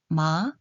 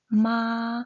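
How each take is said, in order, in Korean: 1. 이 소리는 2성으로 발음합니다. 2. 이 소리는 1성으로 발음합니다. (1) "이" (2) "일"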